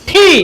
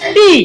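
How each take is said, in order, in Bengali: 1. t aspirated, এতে বাতাসের ফুঁ আছে। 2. t সাধারণ, এতে বাতাসের ফুঁ নেই। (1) "কিন্তু শুদ্ধ উচ্চারণ কি?" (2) "আমরা এটাকে পড়ে আসছি কি আগে?"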